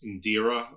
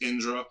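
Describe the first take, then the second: First: An extra vowel comes between the d and r. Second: The d and r are joined with no vowel. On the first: This is the anglicized pronunciation. The speaker calls it wrong. "we probably pronounce it here on when it's anglicized as Indira" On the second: This is the original pronunciation. The speaker calls it right. "but it's Indra"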